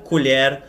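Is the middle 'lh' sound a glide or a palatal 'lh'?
palatal lh. The middle consonant is a palatal 'lh' sound.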